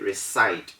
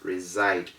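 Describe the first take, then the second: First: The s is said as a hissing s sound. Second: The s is said as a buzzing z sound. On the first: The speaker calls it wrong. "we don't say reside. Reside is wrong according to the rule" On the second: The speaker calls it right. "It is reside"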